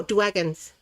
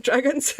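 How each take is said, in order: First: "dragons" said as "dwagons"; babyish W for R. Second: Said in the usual way. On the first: Shown as a demonstration. Correcting herself on loving dragons, "dragons" said playfully as "dwagons". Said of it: "No, dragons".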